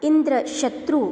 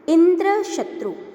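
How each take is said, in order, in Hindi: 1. बलाघात दूसरे शब्द पर है। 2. बलाघात पहले शब्द पर है। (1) "यदि शत्रु पर बलात्मक स्वराघात दिया जाए" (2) "यदि इंद्र पर बलात्मक स्वराघात दिया जाता है"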